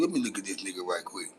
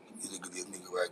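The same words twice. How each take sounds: First: Said in the usual way. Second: Whisper. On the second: Real, not acted. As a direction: whisper it to yourself, leaning in. Checking a viewer's photo.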